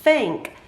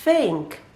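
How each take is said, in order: No difference in how they are said.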